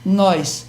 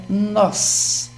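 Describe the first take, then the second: First: "Nós" with an I glide, "nóis"; misspelt pronunciation. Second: "nós" with open O and no I glide; correct pronunciation. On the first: Professor reading the wall's misspelling, "Nós" said as "nóis". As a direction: slip an I before the S of "Nós". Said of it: "até gostosa essa pronúncia". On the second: Professor correcting the sign, clean "nós" without any I. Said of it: "esse i tá demais aí". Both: Shown as a demonstration.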